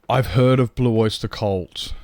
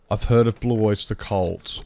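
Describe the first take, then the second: First: Gasp, then slower, slightly raised delight; light up at a name you know; surprised recognition. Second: Said in the usual way. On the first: Real, not acted.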